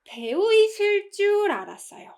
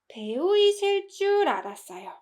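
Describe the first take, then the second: First: 이실 줄 is said with strong emphasis. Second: The same.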